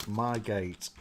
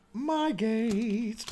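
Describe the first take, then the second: First: Said in the usual way. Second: Mock high-pitched repeat; high silly voice. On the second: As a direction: squeak it in a goofy high voice.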